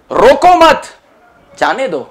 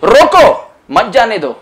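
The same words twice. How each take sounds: First: The pause comes after the word mat. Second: The pause comes after the word roko. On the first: Don't stop him, let him go. "Roko mat, comma, jane do. Don't stop, let him go" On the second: Stop him, don't let him go. "Roko, comma, mat jane do. Opposite meaning"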